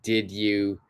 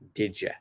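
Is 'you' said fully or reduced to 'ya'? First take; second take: full; reduced. First: The word 'you' is said fully. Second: The word 'you' is reduced to 'ya'. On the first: "I'm going to be joining did you" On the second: "it becomes did ya"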